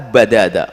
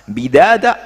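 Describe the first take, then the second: First: The first vowel is an 'a' sound. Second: The first vowel is an 'i' sound. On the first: They die scattered, one after another. "dan juga bisa fathah ba'nya" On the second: Each of them gets an equal share of death. "dengan kasrah ba'nya"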